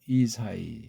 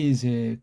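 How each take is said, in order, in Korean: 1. 이름은 sai 음절로 끝납니다. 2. 이름은 se 음절로 끝납니다. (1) "이게 바로 이 사이인데" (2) "한국이 본따서 이세 이세 그런 거예요. 거긴 이 자음 이 요도를 모음으로 바꾸는 잘못된 거예요"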